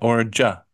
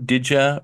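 First: Both words are merged into a single 'ja' sound. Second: The second word is reduced to a short 'ya'. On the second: "Throw in a did ya"

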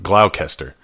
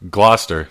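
First: It is said the American way. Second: It is said the British way. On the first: The speaker calls it wrong. "not Gloucester" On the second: The speaker calls it right. "I will admit that Gloucester should be pronounced Gloucester"

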